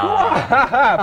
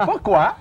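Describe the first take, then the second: First: High, drawn-out exclamation; over-the-top high cry; hammed-up cry. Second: Laughing, then asked with a rising tune; chuckling question; amused repeat. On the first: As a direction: wail it out theatrically. Host cries out the word. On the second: Acted. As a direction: ask it again through a laugh.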